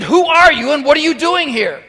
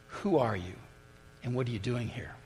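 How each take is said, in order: First: Loud, high bellow of a commander. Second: Quiet repeat. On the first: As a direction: roar the challenge at the trespasser. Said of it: "bellowed out in his military command". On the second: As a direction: hand the question back gently. Priest repeats the question gently. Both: Acted.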